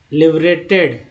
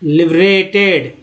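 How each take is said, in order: Both takes have the same delivery.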